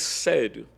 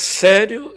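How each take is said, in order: First: Said in the usual way. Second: "Sério?" high, loud, rising sharply; challenging sério. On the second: Retold or imitated. Wife challenges her defiant husband, "Sério?" loud and rising.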